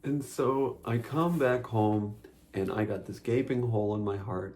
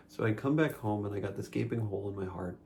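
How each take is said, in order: First: Dramatic storytelling. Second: Said in the usual way. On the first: Acted. Overdone story opening, then retaken plainer.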